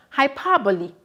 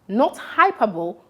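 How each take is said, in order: First: "hyperbole" as hy-PER-bo-lee, four syllables; correct pronunciation. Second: "hyperbole" said as three syllables, hy-per-bowl; wrong pronunciation. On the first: Teacher showing pupils the right way, "hyperbole" hy-PER-bo-lee. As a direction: stress PER and end in lee. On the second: Teacher showing pupils the wrong way, "hyperbole" as hyper-bowl. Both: Shown as a demonstration. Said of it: "take note of the pronunciation".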